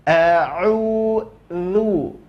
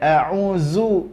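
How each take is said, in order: First: The middle consonant is a soft th sound. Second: The middle consonant is a hissing z sound. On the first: The speaker calls it right. "lidah akan keluar dari batas giginya. Maka keluar a'udzu" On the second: The speaker calls it wrong. "Jadi bukan a'uzu, enggak"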